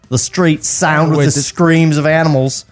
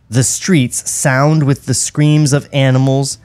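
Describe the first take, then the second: First: It is read in an Australian accent. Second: It is read in the speaker's ordinary accent. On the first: The speaker calls it right. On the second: The speaker calls it wrong.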